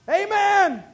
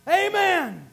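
First: A loud, high Amen falling at the end; preacher's loud amen; ringing amen. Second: Said in the usual way. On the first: Acted. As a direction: call out Amen to rouse the church.

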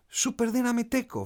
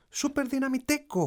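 First: Put-on high, forceful child's battle cry; more forceful shout. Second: Put-on high-pitched little boy's power cry; child's shout. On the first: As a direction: shout it high with extra power, like a boy hero. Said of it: "φώναξε με περισσότερη δύναμη". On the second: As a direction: call it out high like a small superhero fan. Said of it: "φώναξε ο μικρός". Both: A narrator's reading.

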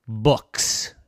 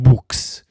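First: Said in the usual way. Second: "books" with a long ghostly oo, like boo; books as "boooks". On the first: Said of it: "not books". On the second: Acted. Ghost mocking the joke, "books" drawn out as "boooks". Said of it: "we do like to read books".

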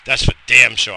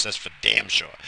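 First: Louder, emphatic repeat; shouted. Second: Said in the usual way. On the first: Real, not acted.

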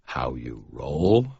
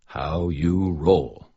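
First: Slow, lower, smiling question; amused echo. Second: Slow, self-satisfied "How you roll."; proud cool phrase. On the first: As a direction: repeat "How you roll?" slowly, lower, with a smile. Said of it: "Michael asked, smiling". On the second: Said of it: "I heard Molly say it once, so it must be cool". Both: A narrator's reading.

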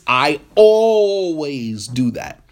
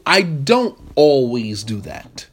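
First: I always do that, always drawn out slowly; emphatic always. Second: I don't always do that, don't stressed and slow; firmly deny, hitting don't. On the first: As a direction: lean on always as a blanket claim. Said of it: "you just use an emphatic phrase". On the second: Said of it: "And I'm saying to you". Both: Shown as a demonstration.

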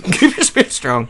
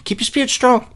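First: "Keep your spirits strong." laughed out, stress on "your"; breaking up while repeating the pep talk; laughing repeat. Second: "Keep your spirits strong." said much higher, ending on a falling "strong"; a hammed-up pep talk pitched high; mock uplifting advice. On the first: Pretend. Second take, laughing. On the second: Mock message, said twice.

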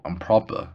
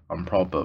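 First: Proper lifted at the end like a question; I'm proper with a questioning rise; rising proper. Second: Proper dropped down, settled and final; I'm proper closed off with a fall. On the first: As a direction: ask it, tune going up on proper. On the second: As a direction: state it flatly, tune falling on proper. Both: Shown as a demonstration.

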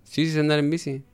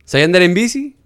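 First: Softer, matter-of-fact reply on "sé andar en bici"; "bici" said softly, without the questioning lift; retold answer. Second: "bici" lifted in a rising question; retold quizzing, pitched up at "bici"; colleague's question. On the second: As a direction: pose it higher, rising on "bici". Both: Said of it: "Y me dijo".

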